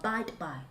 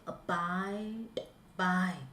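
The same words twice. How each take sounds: First: The word abide flows without any pause. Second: There is a pause inside the word abide. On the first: The speaker calls it right. "That is it" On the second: The speaker calls it wrong. "Don't say abide by. Don't don't give me a pause here"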